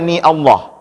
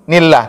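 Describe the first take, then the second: First: A separate catch begins the word Allah. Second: The syllables run straight together without a break. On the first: The speaker calls it wrong. "tidak lagi kita baca ni Allah" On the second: The speaker calls it right. "Langsung nil nillah"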